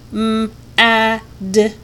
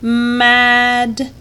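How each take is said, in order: First: Each sound is said separately with pauses. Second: The sounds are joined without stopping.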